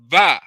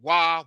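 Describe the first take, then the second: First: The word starts with a V sound. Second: The word starts with a W sound. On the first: This is the ancient Hebrew reading of the letter. The speaker calls it right. "that W is actually a V sound" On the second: This is the Western reading of the letter. The speaker calls it wrong. "we think in the West, wah"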